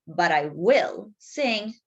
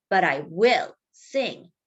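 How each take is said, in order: First: Slow, firm, stress on sing; plucky. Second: Slow, firm on will; stubborn. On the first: Rooster to the mayor, slow and plucky. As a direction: lean on sing slowly. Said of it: "plucky gallito". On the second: Rooster defying the mayor, slow and firm. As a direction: press down on will slowly. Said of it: "said the stubborn gallito". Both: Acted.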